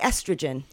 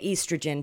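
First: The word is given its American pronunciation. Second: The word is given its non-American pronunciation. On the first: "We say estrogen" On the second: "You don't say oestrogen"

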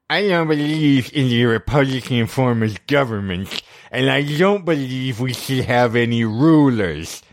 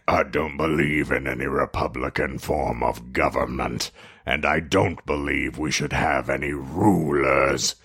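First: It is said in a high-pitched voice. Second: It is said in his normal voice.

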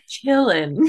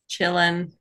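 First: The word is said warmly, with feeling. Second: The word is said flatly, without feeling. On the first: The speaker calls it right. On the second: The speaker calls it wrong.

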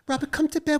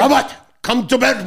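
First: A high, soft put-on celebrity voice. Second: A deep, heavily accented put-on celebrity voice. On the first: "That's [name]" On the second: "That's [name]"

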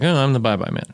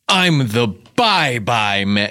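First: The line is tossed off lightly without weight. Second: The line is delivered slowly with heavy weight.

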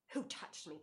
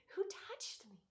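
First: It is said in an angry tone. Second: It is said in a glad, eager tone.

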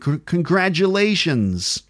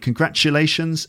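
First: The middle consonant is a voiced j sound. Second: The middle consonant is a voiceless ch sound. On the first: This is the American pronunciation. "and in American, congratulations. So it's more like voiced consonant sounds" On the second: This is the British pronunciation. "Ch. So I'm saying congratulations"

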